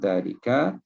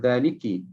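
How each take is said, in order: First: The word ends with an 'a' vowel. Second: The word ends with an 'i' vowel. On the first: The word keeps its fixed unchanging ending. The speaker calls it right. "dia dibaca dengan zalika" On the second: The word takes the normal genitive ending. The speaker calls it wrong. "Kalau ikutnya dia dibaca dengan zaliki"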